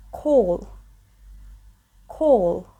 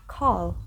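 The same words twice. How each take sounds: First: British "call" with a rounded, closed vowel; British English. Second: American "call", more open and wider; American English. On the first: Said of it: "It's British English pronunciation". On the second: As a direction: say "call" the American way, wide vowel. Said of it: "it's more open and wider". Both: Shown as a demonstration.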